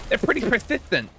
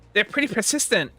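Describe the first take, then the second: First: Higher voice with a lisp. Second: Higher voice without the lisp; plain character voice. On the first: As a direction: lisp the s sounds. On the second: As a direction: say it clean, no lisp. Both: Acted. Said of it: "Why did I give her a lisp?".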